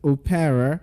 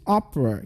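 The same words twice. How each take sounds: First: The middle vowel is pronounced as a full syllable. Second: The middle vowel is dropped, leaving two syllables. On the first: The speaker calls it wrong. "you don't pronounce it as opera" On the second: The speaker calls it right. "the letter E in that word is silent"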